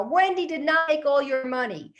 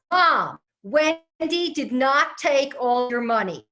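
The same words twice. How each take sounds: First: Higher, louder, exasperated yell; screaming louder. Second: Slow, loud, high, spelled-out words; loud slow call. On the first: Husband repeats himself to his mother, louder screaming. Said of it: "only on a louder octave". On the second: Husband assures his hard-of-hearing mother, slow loud call. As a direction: shout it slowly so she can hear. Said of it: "he's getting ready to scream". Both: Retold or imitated.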